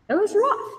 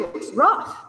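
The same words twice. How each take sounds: First: It was rough pitched much higher, pained; high pained repeat. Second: Said in the usual way. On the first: Real, not acted. Looking back on the first sober year, high pained repeat. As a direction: lift "rough" high, almost a cry.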